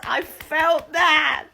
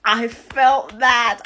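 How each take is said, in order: First: Higher shouted and slow; excited shout. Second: Loud and slow, leaning on every word; emphatic loud. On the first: Vlogger hyping her own reaction to viewers, high slow shout. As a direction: shout it up high, feeling it fully. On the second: Vlogger reacting to Liberty's episode, loud slow emphasis. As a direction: land it hard and slow, like a verdict. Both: Real, not acted.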